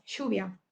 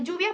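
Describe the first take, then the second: First: "lluvia" with the LL said as "sh", Rioplatense style. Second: Said in the usual way. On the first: Shown as a demonstration. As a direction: say "lluvia" as "shuvia", with a soft sh sound. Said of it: "que suenan como sh o Z". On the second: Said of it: "en vez de lluvia".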